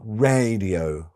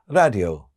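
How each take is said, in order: First: The first vowel is long and open. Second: The first vowel is short and closed. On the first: The speaker calls it right. "and not radio" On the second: The speaker calls it wrong. "don't open their mouths big enough, ... or pronounce the long vowels long enough ... they may say radio"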